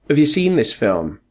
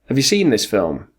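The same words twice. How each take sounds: The two takes are said the same way.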